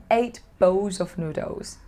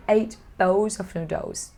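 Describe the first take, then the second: No difference in how they are said.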